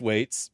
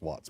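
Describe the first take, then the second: First: The vowel sounds like the one in 'gates'. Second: The vowel sounds like the one in 'lots'. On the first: "it's pronounced Waits" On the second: "I've heard it pronounced Watts before"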